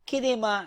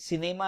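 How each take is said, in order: First: The word begins with a K sound. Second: The word begins with an S sound. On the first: The speaker calls it wrong. "as kinema" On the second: The speaker calls it right. "We are not pronouncing cinema"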